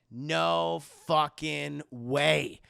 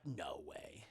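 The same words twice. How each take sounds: First: NO FUCKING WAY drawn out very slowly, each word weighted; loud, slow-motion weight on "No fucking way"; emphatic disbelief. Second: Very soft, low, slow mock disbelief; hushed disbelief. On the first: Retold or imitated. Retold disbelief, repeated with force. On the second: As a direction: drop to a stunned undertone. Retold disbelief on hearing phone.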